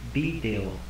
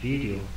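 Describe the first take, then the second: First: The word begins with a B sound. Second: The word begins with a V sound. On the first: This is the Japanese loanword form. "ele vai trocar o som de V por som de B" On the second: This is the original English form. "Em vez de ser vídeo"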